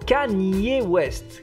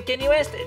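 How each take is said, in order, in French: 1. Le prénom se dit à l'anglaise, 'Kanye'. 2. Le prénom se dit à la française, comme 'Kenny'. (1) "ça se dit Kanye" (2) "par chez nous est connu sous le nom de [name]"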